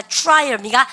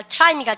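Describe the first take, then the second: First: "trial" starting choo-rai; fuse the start of "trial" into choo-r; English TR sound. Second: "try" with a separate teu syllable; Koreanized TR. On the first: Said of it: "티알은 추추추". ("trial"을 '추라이얼'처럼 발음) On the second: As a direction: say "try" flatly spelled out as teu-ra-i. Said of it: "T하고 R이 있으면". ("try"를 한국식 '트라이'로) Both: Shown as a demonstration.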